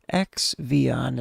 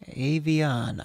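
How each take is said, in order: First: The start is spoken as the letter ex. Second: The start is not spoken as the letter ex. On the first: This is the habitual personal way of saying it. "is how I've always said it because it's an X and then Vion" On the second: This is how the artist wants it said. "I think that's actually how you might how he wants you to pronounce it"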